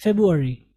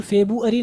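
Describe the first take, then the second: First: FEBRUARY as feb-u-ari, first r left out; silent-r February. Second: FEBRUARY as fe-bu-a-ri, every vowel spelt out; over-separated February. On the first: Teacher models the month for learners, silent-r February. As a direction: say "feb-u-ari" smoothly, falling at the end. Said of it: "silent काफ़ी हद तक करते हैं". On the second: Teacher warns learners not to over-pronounce it, over-separated February. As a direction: show the too-literal "fe-bu-a-ri". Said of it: "अब बिल्कुल फरवरी नहीं पढ़ेंगे". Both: Shown as a demonstration.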